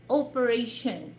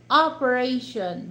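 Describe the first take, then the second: First: "operation" with a round "o" first vowel; Filipino pronunciation. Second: "operation" with an open "ah" first vowel; American "operation"; American pronunciation. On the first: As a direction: say "operation" as oh-peration. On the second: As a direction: say "operation" as ah-peration. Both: Shown as a demonstration. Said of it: "we pronounce that O".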